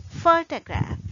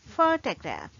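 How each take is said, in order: First: "photograph." said higher and louder with the stress on the first syllable; emphatic model word. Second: "Photograph." said at normal level with a schwa in the second syllable; model word. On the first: Teacher stresses the first syllable for students. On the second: Teacher repeats the word in an even voice. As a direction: repeat "Photograph." calmly, first syllable stressed. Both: Shown as a demonstration. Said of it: "So we say".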